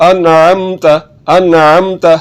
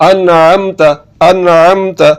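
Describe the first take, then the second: No difference in how they are said.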